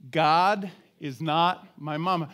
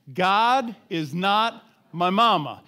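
First: Said in the usual way. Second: Slow, firm declaration with weight on "God"; with conviction. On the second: Shown as a demonstration. Preacher urges congregation to say it with him, with conviction. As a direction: drive "God is not my mama" home slowly and forcefully. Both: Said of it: "say it with a little conviction".

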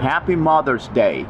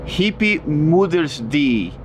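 First: Careful, slightly drawn-out "Happy Mother's Day" with true English vowels; correct English pronunciation. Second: Slow, garbled "Happy Mother's Day" with the vowels wrong, like "hippy mooders dee"; deliberately mispronounced. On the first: Teacher showing the app the right way, "Happy Mother's Day" pronounced correctly in English. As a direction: say "Happy Mother's Day" clearly, "day" ending in a full "ay". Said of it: "Ahora lo voy a decir bien".

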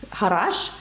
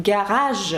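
First: Said in the usual way. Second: "гараж" with hard g and French r; French pronunciation. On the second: Shown as a demonstration. Teacher showing two sounds of one letter, French pronunciation. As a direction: say "гараж" as French garage, ending zh. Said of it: "таке слово, як «гараж»".

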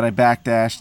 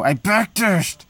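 First: Said in the usual way. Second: High, slow, stretched-out outcry; shocked disbelief. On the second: Real, not acted. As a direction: wail it in disbelief. Gamer repeats in disbelief.

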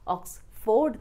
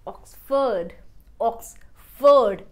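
First: ऑक्सफोर्ड with a full ford; wrong ford. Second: ऑक्सफोर्ड said oks-fud, weak ford; ऑक्सफोर्ड ending in a short fud. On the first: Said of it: "ऑक्सफोर्ड नहीं". (ऑक्सफोर्ड गलत) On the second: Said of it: "ford here". (ऑक्सफोर्ड कमजोर फ़र्ड) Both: Shown as a demonstration.

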